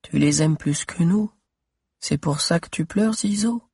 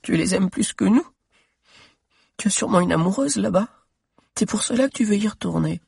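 First: Voix d'enfant qui interroge doucement; petite voix de fillette. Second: Voix d'enfant très aiguë, en pleurs; petite fille qui pleure. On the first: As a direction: une petite fille triste. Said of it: "une petite voix". (fillette qui demande à Zizo, petite voix) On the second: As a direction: une fillette jalouse et triste. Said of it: "Elle aussi pleurait". (la fillette reproche à Zizo, voix de pleurs aiguë) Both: Acted.

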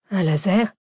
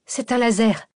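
First: Loud echo question, rising at the end; astonished question. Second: Raised-pitch exclamation, falling at the end; called-out realisation. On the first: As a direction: question it in surprise, LASER rising. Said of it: "s'étonna Arsène". (question étonnée, montante) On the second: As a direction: call out the discovery to the others. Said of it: "lança la chercheuse". (exclamation lancée, voix plus aiguë) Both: A narrator's reading.

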